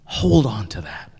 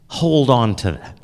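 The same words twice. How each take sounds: First: Whispering. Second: Said in the usual way. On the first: Shown as a demonstration. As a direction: whisper it like a secret. Repeats advice, then whispers it.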